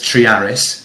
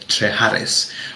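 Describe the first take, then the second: First: The name is said without an h sound. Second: The name is said with an h sound.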